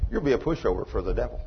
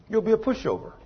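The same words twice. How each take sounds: First: Said in the usual way. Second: Emphatic repeat. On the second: Real, not acted. Preacher repeating the warning to the congregation, high emphatic repeat. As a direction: lift the whole line up to drive it home.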